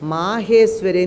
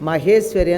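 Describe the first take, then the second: First: The first vowel is held long. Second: The first vowel is kept short. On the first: The speaker calls it right. "దీర్ఘం ఉంటుంది" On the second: The speaker calls it wrong. "అని చదువుతారు"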